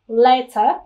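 The middle t is pronounced clearly as t. "Nếu mà tiếng Anh ấy, thì em không bị nhầm đâu. Người ta đọc rất rõ là letter"

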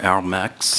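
The name is pronounced the French way.

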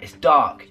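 It is said in a firm, determined tone. The speaker is ready to act anyway. The speaker calls it right. "just saying them in a slightly different way"

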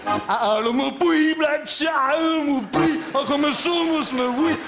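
It is said in a drunken Bavarian accent.

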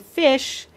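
The word ends with an sh sound. "instead of saying fish"

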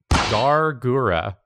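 The name is said with English sounds. "I'm going to try my best to pronounce this word in English"

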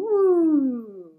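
The pitch glides downward. "this is down"

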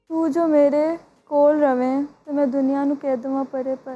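It is said in a sad tone.

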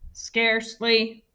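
The word is said in a flat robotic voice. "And now I want you to say it in a robot voice"

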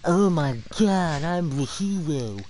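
It is said in a slow, droopy put-on voice.

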